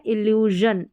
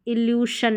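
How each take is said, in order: First: इल्यूजन ending in voiced zhun. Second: इल्यूशन ending in unvoiced shun; hushing sh in इल्यूशन; wrong sh in इल्यूशन. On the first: Teacher modelling the right reading, इल्यूजन with zh. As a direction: buzz the zh in इल्यूजन. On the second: Teacher showing the reading to avoid, इल्यूशन with sh. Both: Shown as a demonstration. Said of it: "इल्यूशन नहीं".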